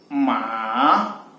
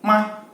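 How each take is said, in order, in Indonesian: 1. Nadanya turun dulu, lalu naik. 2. Suku katanya pendek, ringan, dan tidak bertanda. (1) "nada ketiga bisa kita lihat dia turun kemudian naik" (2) "nada kelima"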